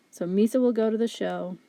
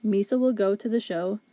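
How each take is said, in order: First: Said in the usual way. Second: Even, monotone robot reading. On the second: Shown as a demonstration. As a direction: say it like a machine, each word flat. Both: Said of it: "if we were to speak like a robot".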